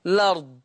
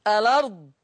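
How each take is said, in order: First: "الأرض" as lard, starting on l; one syllable in "الأرض": lard; initial vowel dropped. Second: "الأرض" as a-lard, starting on a vowel; two syllables in "الأرض": a-lard; initial vowel kept. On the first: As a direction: begin "الأرض" straight on the l. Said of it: "حذف". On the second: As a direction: open "الأرض" with a short a. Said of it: "إثبات همزة الوصل". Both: Shown as a demonstration.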